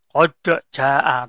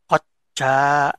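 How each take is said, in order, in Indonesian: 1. Bunyi d dilepas sebagai letupan yang terpisah. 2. Bunyi d langsung mengalir ke bunyi berikutnya. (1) "Jadi bukan kodok jaa" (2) "tapi koja"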